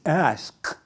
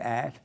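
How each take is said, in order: First: The word is said like 'ask'. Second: The word is said like 'ax'. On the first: This is the way the speaker was taught. The speaker calls it right. "It's ask" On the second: This was the speaker's earlier way of saying it. The speaker calls it wrong. "I used to say at"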